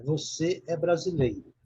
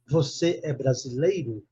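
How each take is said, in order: First: "Você é brasileiro" as a plain statement, falling at the end; statement intonation. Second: "Você é brasileiro" slowed into a question, melody lifted on "brasileiro"; question intonation. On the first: Teacher models "Você é brasileiro" for an English student, affirmative falling tune. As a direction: state "Você é brasileiro" as a fact, voice dropping to close. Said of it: "É uma afirmativa".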